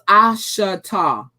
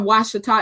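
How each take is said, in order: First: The name begins with a vowel sound. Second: The name begins with a w sound. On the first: The speaker calls it right. "it's ashata" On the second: The speaker calls it wrong. "It's not washita"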